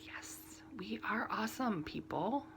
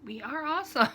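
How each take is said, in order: First: Whispered, proud aside; playful whispered pride in the crafting community; mock whisper. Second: Higher and louder cheer; playful cheer for her own crafting community; proud cheer. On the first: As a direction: whisper it like a smug secret. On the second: Retold or imitated. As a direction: shout it out proudly. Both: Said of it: "and I'm like".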